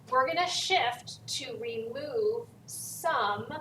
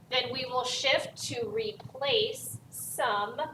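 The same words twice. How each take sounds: First: Slow, with weight landing on the final some; stress on some. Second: Slow, with the word some pressed home at the end; stress on some. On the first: Teacher explaining that adding chemical shifts to remove only some, stress on some. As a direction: hit the word some at the end of the phrase. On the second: Teacher explaining that removal shifts to replace only some, stress on some. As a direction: lean on some so it sticks. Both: Shown as a demonstration. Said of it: "emphasis on some".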